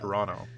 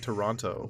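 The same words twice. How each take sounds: First: The second T is dropped. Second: The second T is clearly pronounced. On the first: This is how locals say it. "We don't pronounce the second T. ... We say Toronto" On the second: This is how people from outside the city say it. "we don't say Toronto"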